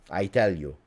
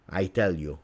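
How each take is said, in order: Both takes have the same delivery.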